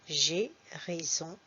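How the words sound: The vowels are said with an 'é' sound. "tu peux aussi dire ces deux sons et"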